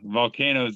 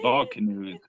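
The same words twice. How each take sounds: First: The ending sounds like 'toes', the usual way. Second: The ending sounds like the word 'canoes'.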